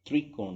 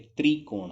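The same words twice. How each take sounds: First: त्रिकोण with a vibrating "trr" start; barely any i in त्रिकोण; wrong तृ pronunciation. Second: त्रिकोण with a clear "tree" start; plain i after tr in त्रिकोण; correct "त्रि" pronunciation. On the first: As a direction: say त्रिकोण as तृकोण. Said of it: "त्रिकोण नहीं होता". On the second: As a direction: say त्रिकोण as "tri-kon". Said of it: "ये त्रिकोण होता है". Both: Shown as a demonstration.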